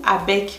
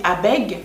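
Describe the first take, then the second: First: "abeg" ending on a hard k; final k sound. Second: "abeg" ending on a voiced g; final g voiced. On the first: Vlogger offering the other option, "abeg" ending in k. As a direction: say "abeg" as if spelt abek. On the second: Vlogger unsure of the word, "abeg" with voiced g. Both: Shown as a demonstration. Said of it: "Je sais pas si on dit".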